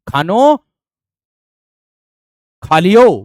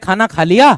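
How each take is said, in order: First: The words end in 'o' sounds. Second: The words end in 'aa' and 'a' sounds. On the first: This is the dialect form. "वे कहेंगे" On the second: This is the standard Hindi form. "हम कहते"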